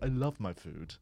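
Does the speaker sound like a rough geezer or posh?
posh. It is said in a posh, refined voice. A fine diner is imagined saying it. The speaker calls it wrong. "No one sitting in a like fine dining Michelin style restaurant is going"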